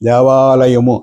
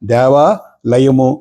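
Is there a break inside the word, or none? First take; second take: none; break. First: The long vowel joins smoothly to the next syllable. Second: There is a break after the long vowel. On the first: It gives the intended meaning. The speaker calls it right. "ఆకారాన్ని సాధ్యమైనంత వరకు లకారంతో కలిపినట్లయితే" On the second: It suggests a different, wrong meaning. The speaker calls it wrong. "అక్కడ ఇంకో రకమైనటువంటి అపార్థం వస్తుంది"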